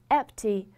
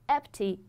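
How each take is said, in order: No difference in how they are said.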